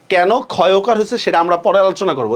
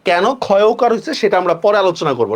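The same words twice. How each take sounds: The two takes are said the same way.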